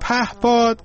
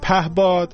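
First: The second consonant is a clear p sound. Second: The second consonant is voiced as a b sound. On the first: "اون پهباد" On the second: "چرا مردم میگن پهباد"

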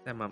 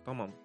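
First: The first vowel is a soft, fronted e. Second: The first vowel is a hard, open a. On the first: The speaker calls it right. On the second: The speaker calls it wrong.

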